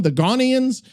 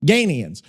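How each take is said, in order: First: "Ghanaians" asked with a questioning rise, first vowel as in "father"; tentative "Ghanaians" said as "GAH-nee-ans"; unsure pronunciation. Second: Decided "Ghanaians" with a long A, falling; settled pronunciation. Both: Shown as a demonstration. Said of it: "what do you even say".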